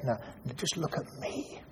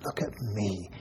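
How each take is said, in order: First: Whispered softly, face to face; hushed, gentle plea. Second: Soft and low, barely voiced; quiet tender voice; gentle. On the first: Acted. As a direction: breathe it, tenderly. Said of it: "gets hold of her face very gently and says". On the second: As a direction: say it tenderly, softer. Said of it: "very gently and says".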